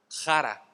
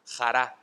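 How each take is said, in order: First: Said in the usual way. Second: "jara" stressed on its last A; stress on final A. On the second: Shown as a demonstration. Preacher giving the dictionary form of a Greek word, final A stressed in "jara". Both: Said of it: "con el acento en la A".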